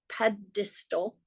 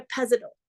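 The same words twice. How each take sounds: First: "pedestal" slowly, with a clear d; softer, careful correction: "PED-is-tal"; corrected pedestal. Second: "pedestal" slurred as "pezestal"; slip on pedestal. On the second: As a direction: stumble on the d in "pedestal", making it a z. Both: Real, not acted.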